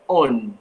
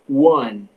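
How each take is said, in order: First: It begins with a plain vowel, no w. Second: It begins with a w-like sound. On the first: The speaker calls it wrong. "eu não digo on" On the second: The speaker calls it right. "eu digo one"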